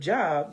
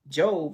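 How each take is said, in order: First: The vowel is a short 'o' sound. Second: The vowel is a long 'oh' sound. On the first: This is the everyday word for work. The speaker calls it wrong. "instead of Job" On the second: This is the biblical name. The speaker calls it right. "know to say Job"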